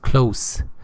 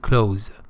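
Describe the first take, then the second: First: The word ends with a soft s sound. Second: The word ends with a buzzing z sound. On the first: Something is near. "When close means near, it is pronounced close" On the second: Something is shut. "When it it is the opposite of open, it is close"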